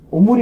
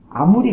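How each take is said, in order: First: The first vowel is pronounced as 'o'. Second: The first vowel is pronounced as 'a'. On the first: The speaker calls it right. "오무리라고 하는 거 있죠" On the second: The speaker calls it wrong. "딱 봤을 때 아무리 같잖아요"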